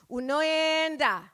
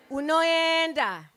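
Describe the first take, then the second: No difference in how they are said.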